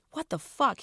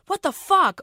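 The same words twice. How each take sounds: First: Raised, indignant demand. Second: High, loud shocked scream. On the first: Front passenger demanding an answer from Rose, raised and indignant. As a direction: demand an answer, hurt and outraged. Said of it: "he demanded". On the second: Guys in the car screaming at Rose, high and loud. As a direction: shriek it in disgust at the tampon. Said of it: "all the dudes screamed". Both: Acted.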